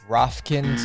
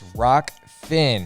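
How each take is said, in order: First: The name is said with f before k. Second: The name is said with k before f. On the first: The speaker calls it wrong. "Excuse me, not Rofkin" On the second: The speaker calls it right. "It is Rockfin"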